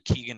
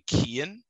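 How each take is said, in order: First: The G sound in the middle is pronounced. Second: The G sound in the middle is silent. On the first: "I've heard people say Keoghan as well" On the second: "you don't pronounce the G"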